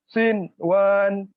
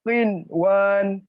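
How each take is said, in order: Both takes have the same delivery.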